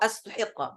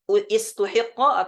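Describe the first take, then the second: First: The word begins with an a vowel. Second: The word begins with an i vowel.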